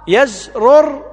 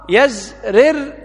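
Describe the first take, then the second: First: The first r is followed by a u vowel. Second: The first r is followed by an i vowel. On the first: "بضم الراء" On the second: "بكسر الراء"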